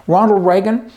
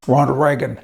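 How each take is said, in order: First: "Ronald Reagan" called out louder and higher, rising at the end; emphatic name. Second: Said in the usual way. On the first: Shown as a demonstration. Host introduces Reagan with a loud rising call. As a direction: lift "Ronald Reagan" up like an announcement.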